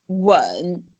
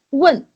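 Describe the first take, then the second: First: The pitch dips down, then rises up. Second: The pitch is one harsh, forceful strike. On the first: "you nod it down and then you nod it up" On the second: "it's also one strike... It's kind of harsh"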